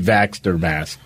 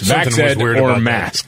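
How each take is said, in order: First: Vaxxed is said as one syllable, vaxt. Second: Vaxxed is said as two syllables, vax-ed. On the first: The speaker calls it right. "It's supposed to be vaxxed or masked" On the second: The speaker calls it wrong.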